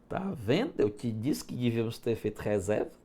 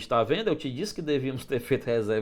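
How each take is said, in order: First: It is said in a highly ironic tone. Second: It is said in a sincere, plain tone.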